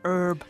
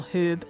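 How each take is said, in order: First: The word starts without any h sound. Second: The word starts with an audible h sound. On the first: "which Americans pronounce as herb" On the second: "the word that we call herb in New Zealand"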